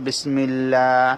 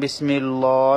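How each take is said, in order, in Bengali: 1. Allah শব্দের L পাতলা ও হালকা। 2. Allah শব্দের L ভারী ও পূর্ণ। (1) "এখানে বলতে হবে বিসমিল্লাহ" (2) "এখানে যেন বিসমিল্লাহ না বলা হয়"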